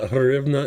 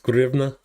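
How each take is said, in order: First: The word begins with an H sound. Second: The word begins with a G sound. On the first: The speaker calls it wrong. "it's not Hrivna" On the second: The speaker calls it right. "it's supposed to be a, a G sound"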